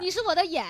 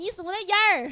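First: It ends plainly, without an added er sound. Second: It ends with a Chongqing-style er sound.

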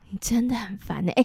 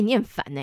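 First: The phrase is said in a sad, sorrowful tone. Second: The phrase is said in an angry, irritated tone. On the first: "那如果很哀愁，非常悲伤" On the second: "那如果大家很生气呢？"

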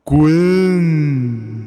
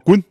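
First: The word is long, strong and drawn out. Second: The word is said short and plain.

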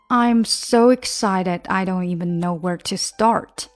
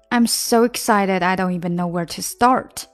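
First: The sentence is said at a slower pace. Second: The sentence is said at a faster pace.

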